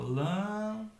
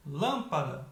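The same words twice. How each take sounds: First: LÂMPADA slowly split, LÂM held long; separated syllables. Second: LÂMPADA in one go, LÂM punched; stress on first syllable. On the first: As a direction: stretch LÂM, then place pa and da apart. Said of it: "eu separo". (lâmpada separada, sílaba por sílaba) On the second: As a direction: hit the LÂM of lâmpada and let the rest fall. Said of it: "a mais forte". (lâmpada com força no LÂM) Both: Shown as a demonstration.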